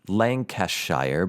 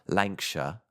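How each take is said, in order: First: Every syllable is said in full, as spelled. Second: The middle syllables are squeezed and shortened. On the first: "now it's spelled Lancashire" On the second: "They truncate their pronunciations"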